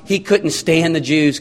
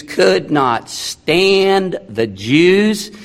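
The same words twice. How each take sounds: First: Said in the usual way. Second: "could not stand" drawn out word by word; slow emphatic restatement. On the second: Real, not acted. Preacher stressing Pilate's dislike to the congregation, slow and emphatic.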